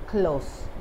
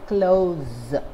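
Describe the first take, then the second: First: The word ends with a hissing s sound. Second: The word ends with a buzzing z sound. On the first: It means near. "As an adjective, ... close with a s sound" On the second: It means to shut something. "as a verb, ... pronounced as close with the z sound"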